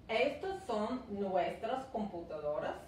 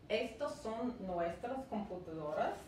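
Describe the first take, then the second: The two takes are said the same way.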